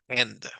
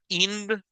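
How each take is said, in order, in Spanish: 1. La vocal se pronuncia como un sonido corto. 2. La vocal se pronuncia como un sonido largo. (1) "sino va a pronunciar end" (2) "ninguno de ustedes va a pronunciar ind"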